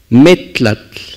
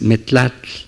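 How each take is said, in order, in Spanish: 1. El acento está en la primera sílaba. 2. El acento está en la última sílaba. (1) "se acentúa en la penúltima sílaba" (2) "y no es metlatl"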